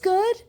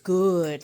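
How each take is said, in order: First: The pitch goes up a little on the word. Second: The vowel is stretched out with a growl. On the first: The food is only okay. "Then the voice goes up a little" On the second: The food is top-tier. "like with an extra O, and there's usually a little grunt or a growl"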